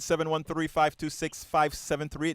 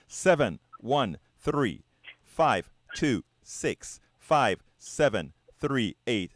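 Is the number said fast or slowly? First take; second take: fast; slowly. First: The number is said quickly. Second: The number is said slowly and carefully.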